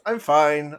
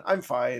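First: Louder gruff alien twang; Watto voice. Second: Said in the usual way. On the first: Shown as a demonstration. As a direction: try a Watto line. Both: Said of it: "professional Watto impressions".

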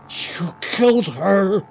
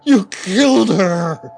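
First: Loud, high, slow anguished scream. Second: Even louder high scream. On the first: Raymond discovering Elizabeth dead, anguished scream. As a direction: scream the accusation. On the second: Raymond accusing the woman a second time, louder scream. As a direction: let the scream tear out. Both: A narrator's reading. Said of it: "Raymond screamed".

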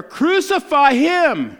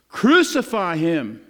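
First: Slow, much higher and louder shout; full-throated crowd yell. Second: Slow, louder read-out shout; a measured, firm shout. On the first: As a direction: belt it out like a mob. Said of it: "they shouted all the louder". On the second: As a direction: crowd shouting, read with restraint. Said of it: "they shouted". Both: A narrator's reading.

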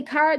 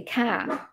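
First: "car" with the r sounded; own CAR. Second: "car" drawn out as "caa", no r; their local CAR. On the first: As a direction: say "car" with a clear final r. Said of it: "I say car". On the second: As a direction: say "car" slowly, dropping the r. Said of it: "they say car". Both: Shown as a demonstration.

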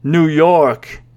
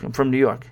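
First: Drawn-out sceptical echo; stretched-out, doubting imitation; mock disbelief. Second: Said in the usual way. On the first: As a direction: imitate a stranger doubting NEW YORK. Stranger doubts the answer.

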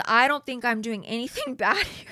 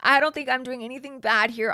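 First: Laughing through the quote; breaking into laughter. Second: Louder mock-innocent retake; louder sarcastic retelling of his line; mocking quote. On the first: Retold or imitated. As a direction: quote cracking up midway. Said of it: "I can't even say this with a straight face". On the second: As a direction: parrot him mockingly, a touch higher. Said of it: "He says".

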